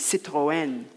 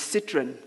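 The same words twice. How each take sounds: First: Citroën is said in a careful, precise way. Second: Citroën is said in a casual, homely way. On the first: This is the accepted way to say it. The speaker calls it right. "Apparently the correct pronunciation is Citroën" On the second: This is how the family used to say it. The speaker calls it wrong. "as we called it"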